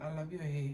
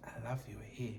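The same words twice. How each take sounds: First: Said in the usual way. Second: Softly whispered, no voice; whispered compliment. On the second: Retold or imitated. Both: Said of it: "ke tlo take care of".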